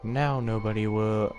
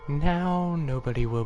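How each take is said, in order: First: It is said in the reader's ordinary voice. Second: It is said in a put-on character voice. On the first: The speaker calls it wrong. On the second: The speaker calls it right.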